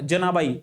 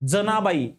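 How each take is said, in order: First: The first consonant is palatal, not dental. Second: The first consonant is dental, not palatal. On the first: The speaker calls it wrong. "प्रत्येकाच्या तोंडातून जनाबाईचा जचा उच्चार तालव्यासारखा निघतो" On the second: The speaker calls it right. "जनाबाई not जनाबाई"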